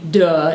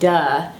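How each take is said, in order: First: It is said in a dopey, low-throated voice. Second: It is said in a plain, ordinary voice. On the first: "and I mean a dopey duh" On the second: "not just duh"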